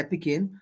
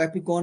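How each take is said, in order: First: Epicene said as epi-seen, ending on seen; Epicene, the right way, epi-seen; correct pronunciation. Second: Epicon said as epi-con, ending on con; the mistaken reading Epicon, epi-con; wrong pronunciation. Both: Shown as a demonstration. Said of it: "इसको Epicon नहीं बोलेंगे".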